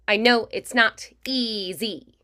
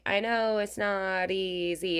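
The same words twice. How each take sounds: First: The consonants are crisp, snappy and energetic. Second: The consonants are soft and less energetic.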